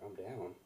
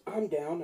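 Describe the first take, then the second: First: Puzzled echo. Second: Higher, louder mock old-lady announcement; eager elderly lady. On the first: Retold or imitated. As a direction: repeat it quietly, not getting it. He puzzles over her words. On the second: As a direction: pipe up boldly as an elderly lady. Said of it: "it was an elderly lady".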